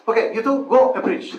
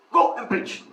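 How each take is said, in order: First: Loud, high mock command; brisk leader's order. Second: Imitated abrupt command; curt leader's order. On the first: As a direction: dispatch two novices briskly, laughter close behind. Re-enacts the leader sending them off. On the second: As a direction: send them off with a short order.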